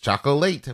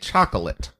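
First: The word is pronounced in an unusual way. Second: The word is pronounced in the ordinary way. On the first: It forms part of a pun. "The joke says chocolate" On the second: It is the everyday way of saying it. "Normally you'd say chocolate"

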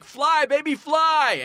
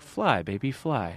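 First: It is said in an intense, impassioned way. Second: It is said in a smooth, calm way. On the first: "you can say that with like an intense" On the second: "you could also say sort of like as a smooth"

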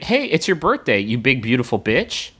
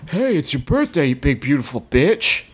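First: It is read in a natural, ordinary voice. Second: It is read in an altered, put-on voice.

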